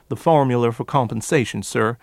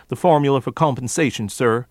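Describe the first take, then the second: Both takes have the same delivery.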